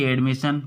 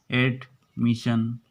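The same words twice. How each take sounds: First: एडमिशन with a clear open ए at the start; teacher modelling the vowel in एडमिशन; ए sound in admission. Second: एडमिशन said slowly, syllable by syllable, a bit lower; teacher slowly drilling एडमिशन; slow drawn-out model word. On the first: Teacher modelling a word for Hindi-speaking students. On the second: Teacher drilling the word slowly for students. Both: Shown as a demonstration. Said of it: "वर्णों के starting अंदर ए आता है".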